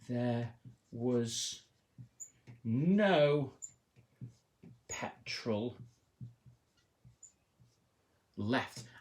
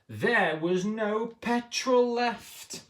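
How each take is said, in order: First: It is said calmly, in a plain voice. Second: It is said loudly, in a panicky voice.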